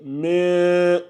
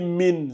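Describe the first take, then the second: First: The n is hidden in a nasal sound. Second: The n is pronounced fully and clearly. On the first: The speaker calls it right. "c'est min, min, charri. ... fais attention au ikhfa" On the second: The speaker calls it wrong. "Faut pas lire min"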